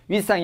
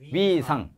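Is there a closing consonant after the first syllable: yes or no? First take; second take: yes; no. First: The first syllable ends in a clipped consonant. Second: The first syllable ends in an open vowel. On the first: The speaker calls it wrong. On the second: The speaker calls it right.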